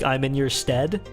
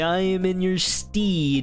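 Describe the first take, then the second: First: The last word has a short 'e' vowel. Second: The last word has a long 'ee' vowel. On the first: The speaker sounds plain and humble. The speaker calls it right. "it feels like I'm a little homeless dude" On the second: The speaker sounds like an honorable medieval knight. The speaker calls it wrong. "it feels like a little more like medievally"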